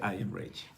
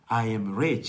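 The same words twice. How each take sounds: First: It is said plainly, without feeling. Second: It is said with conviction and feeling.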